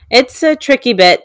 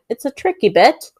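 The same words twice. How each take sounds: First: It is said in the speaker's usual American accent. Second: It is said in a put-on British accent.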